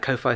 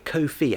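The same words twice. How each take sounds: First: The word does not rhyme with 'no fee'. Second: The word rhymes with 'no fee'. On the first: The speaker calls it wrong. "I keep saying it wrong" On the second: The speaker calls it right. "to rhyme with no fee"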